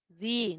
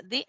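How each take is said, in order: First: Said in the usual way. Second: "di" with the i held long; long vowel. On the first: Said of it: "no es lo mismo que yo diga di". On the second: Shown as a demonstration. Teacher showing students the long I, "di" with a lengthened i. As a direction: draw out the vowel in "di". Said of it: "eso quiere decir que es larga".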